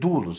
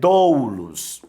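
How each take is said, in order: First: The vowel letters are read together as one sound. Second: The vowel letters are read as two separate sounds. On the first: The speaker calls it right. "Você tem aqui um ditongo, você vai ler doulos" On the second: The speaker calls it wrong. "Você não vai ler doulos"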